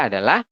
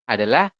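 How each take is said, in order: Both takes have the same delivery.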